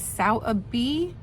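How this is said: It is said with a British pronunciation. "The British pronunciation was"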